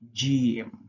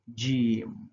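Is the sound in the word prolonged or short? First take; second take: prolonged; prolonged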